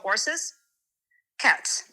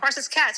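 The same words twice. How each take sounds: First: A clear pause separates the two words. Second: The two words run together without a pause. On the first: The speaker calls it right. "you go horses cats" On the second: The speaker calls it wrong. "instead of like going horses cats"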